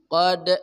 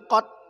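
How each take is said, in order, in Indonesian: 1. Konsonan akhir dilepas dengan memantul. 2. Konsonan akhir ditelan tanpa dilepas. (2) "Bukan qad, itu masuk itu"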